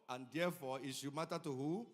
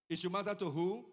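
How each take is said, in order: First: Said in the usual way. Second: Repeated louder, rising on "matter". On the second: Acted. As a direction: call the question out to the congregation. Preacher repeats question to congregation.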